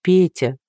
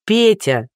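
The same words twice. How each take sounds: First: Mildly despairing reproach; understated hopelessness; hopeless. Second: Sharp, higher rebuke; exasperated snap; barked. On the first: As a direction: say the name as if giving up. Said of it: "повторила Дуся безнадёжно". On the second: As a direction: bark the name to cut him off. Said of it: "рявкнула Дуся". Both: A narrator's reading.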